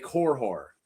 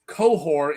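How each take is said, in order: First: The name is said with an R after the first vowel. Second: The name is said without an R after the first vowel. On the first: The speaker calls it wrong. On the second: The speaker calls it right.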